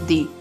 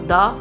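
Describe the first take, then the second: First: The word ends in a long 'ee' vowel. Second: The word ends in a short 'uh' vowel. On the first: The next word starts with a vowel sound. "Vowel sound के साथ होगा तो क्या pronounce किया जाएगा, इसे दी" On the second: The next word starts with a consonant sound. "Consonant sound के साथ, तो ये प्रोनाउंस होगा दा"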